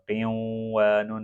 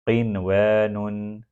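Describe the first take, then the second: First: The n merges nasally into the following w. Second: The n is pronounced clearly before the w. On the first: The speaker calls it wrong. "यहाँ पर क़ियों व नुन नहीं पढ़ा जाएगा" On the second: The speaker calls it right. "नून सुकून के बाद वाव आ गया"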